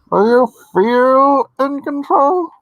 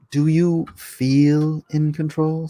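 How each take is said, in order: First: High, loud and drawn-out line reading; mock voiceover. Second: Said in the usual way. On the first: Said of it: "He says". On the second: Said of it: "Except he said it wrong".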